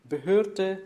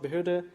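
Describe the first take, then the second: First: The stressed vowel is said long. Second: The stressed vowel is said short. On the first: This is the German Standard German form. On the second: This is the Austrian Standard German form.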